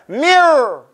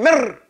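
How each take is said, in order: First: The r is rolled and held longer. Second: The r is a single short tap. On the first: The speaker calls it right. "you got to make it roll" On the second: The speaker calls it wrong. "you can't mirror. You don't do that"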